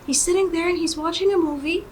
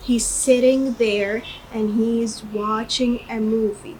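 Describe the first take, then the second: First: The sentence is said quickly. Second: The sentence is said at a normal pace.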